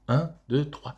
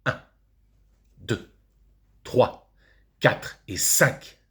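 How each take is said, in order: First: "Un, deux, trois" run together briskly; quick count. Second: "Un, deux, trois" with a long pause after each number; measured count. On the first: Pupil counting on fingers for the teacher, quickly. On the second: Father showing how to count on fingers, slowly spaced. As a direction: set each of "Un, deux, trois" apart, deliberately. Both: Acted.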